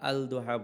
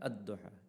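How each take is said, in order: First: The L sound is pronounced before the word. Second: The L is silent and the D is doubled. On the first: The speaker calls it wrong. "আমরা আল দোহা বলি না" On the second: The speaker calls it right. "এখানে লামটা আমরা উচ্চারণ করি না"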